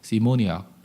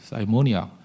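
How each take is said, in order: First: The first syllable sounds like 'see'. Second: The first syllable sounds like 'sigh'. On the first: This is how people actually say it. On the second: This is the form listed in the dictionary.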